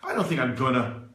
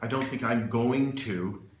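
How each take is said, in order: First: Going to is reduced to gonna, relaxed. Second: Going to is said in full, carefully. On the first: The speaker calls it right. "It's very natural, very relaxed" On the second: The speaker calls it wrong. "That's not really how a foreigner, or a native person speaks"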